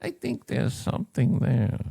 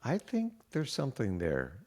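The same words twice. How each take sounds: First: Slow, sinister mad scientist; evil scientist voice. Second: Evil scientist voice. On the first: Shown as a demonstration. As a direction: purr it like a scheming villain. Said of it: "evil scientist voice". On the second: Real, not acted. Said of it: "You almost dropped into an evil scientist voice".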